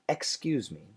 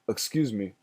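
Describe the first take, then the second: First: The first vowel is a clear eh sound. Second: The first vowel is a reduced uh sound. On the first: This is the careful, perfect pronunciation. "if you ask me to pronounce that word perfectly" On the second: This is a possible but less common pronunciation. "uh is the schwa sound"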